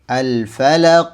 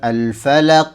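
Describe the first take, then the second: First: The final q echoes with a heavy, thick sound. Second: The final q echoes with a light, thin sound. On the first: The speaker calls it right. "Qaf di sini adalah huruf yang tebal, maka pantulannya pun harus tebal" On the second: The speaker calls it wrong. "Jadi bukan al-falaq. Al-falaq itu tipis"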